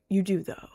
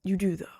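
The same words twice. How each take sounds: First: Said in the usual way. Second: Whispered. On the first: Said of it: "No, you do". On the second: Shown as a demonstration. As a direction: whisper "You do, though" under the breath.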